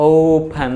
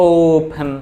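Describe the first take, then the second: No difference in how they are said.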